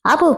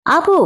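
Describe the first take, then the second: First: Said in the usual way. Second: ఆపు yelled high and sharp; shout. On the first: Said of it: "గట్టిగా అరిచింది శిఖర". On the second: Acted. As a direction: shout ఆపు to shut her up. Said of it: "గట్టిగా అరవగానే". (గట్టిగా అరిచి ఆపు)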